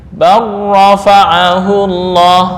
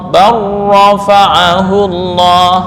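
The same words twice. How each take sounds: Both takes have the same delivery.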